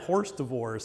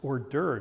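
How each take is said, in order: First: It is said like the words horse divorce. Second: It is said like or-derves, without horse divorce. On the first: The speaker calls it wrong. "my mother always thought that was actually horse divorce" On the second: The speaker calls it right. "Mom, it's hors d'oeuvres"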